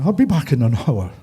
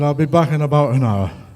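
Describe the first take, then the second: First: It is said in an Irish accent. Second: It is said in the speaker's plain accent.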